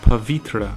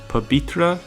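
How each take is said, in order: First: The middle consonant is a v sound. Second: The middle consonant is a b sound. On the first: "pronounced as a ba or va sound" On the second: "pronounced as a ba or va sound"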